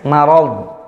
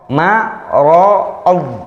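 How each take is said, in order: First: The 'ma' is pronounced light and thin. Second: The 'ma' is pronounced heavy and full. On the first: The speaker calls it right. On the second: The speaker calls it wrong.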